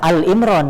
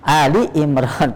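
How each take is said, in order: First: The first word is a bare 'Al'. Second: The first word ends in an 'i' vowel. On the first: The speaker calls it wrong. "bacanya bukan Al Imron" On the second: The speaker calls it right. "tapi Ali Imron"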